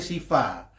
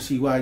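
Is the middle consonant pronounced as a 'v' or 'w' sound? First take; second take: v; w. First: The middle consonant is a 'v' sound. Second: The middle consonant is a 'w' sound. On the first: The speaker calls it wrong. "[name] ini ngomong siwa aja siva" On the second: The speaker calls it right. "V itu di dalam bahasa Sanskerta itu dibaca W"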